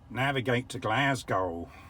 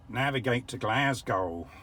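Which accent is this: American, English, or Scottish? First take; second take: American; American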